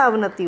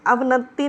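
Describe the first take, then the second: First: अवनति with a light single t: av-na-ti; correct pronunciation. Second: अवनति with a heavy t: av-nat-ti; wrong pronunciation. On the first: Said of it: "अवनति होता है". (अवनति में "ति" हल्का बोलें) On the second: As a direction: lean on a doubled t in अवनति. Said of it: "अवनति नहीं होता". (अवनति को "अवनत्ति" जैसा बोलें) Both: Shown as a demonstration.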